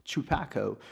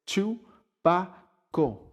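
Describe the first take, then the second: First: Chupaco with an American accent, quick and casual; American accent version. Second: Chupaco said slowly and drawn out, pitched higher, the proper Spanish way; Spanish pronunciation. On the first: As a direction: say Chupaco the way English speakers do. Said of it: "they pronounce it and say it with the three". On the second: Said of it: "And it's, it's". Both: Shown as a demonstration.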